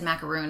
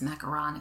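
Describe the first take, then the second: First: The last syllable ends in a long oo sound. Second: The last syllable ends in a short on sound. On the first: The speaker calls it wrong. "I say it wrong. I always said macaroon" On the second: The speaker calls it right. "it's macaron if it's the French version"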